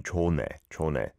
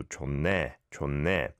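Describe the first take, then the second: First: 좋네 with the first syllable open, no doubled n; unblended sounds. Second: 좋네 linked with a held n, "chon-ne"; blended sounds. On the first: Teacher showing what to avoid, 좋네 as "cho-ne". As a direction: say 좋네 as "cho-ne", sounds kept apart. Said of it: "rather than". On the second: Teacher explaining linking, 좋네 said as "chon-ne". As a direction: run 좋네 together as "chon-ne". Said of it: "There is a blending of sounds". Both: Shown as a demonstration.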